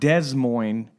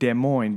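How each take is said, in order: First: The s at the end of Des is sounded. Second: The s at the end of Des is silent. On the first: The speaker calls it wrong. "It's not Des Moines" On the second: The speaker calls it right. "It's Des Moines, but it's spelled D E S"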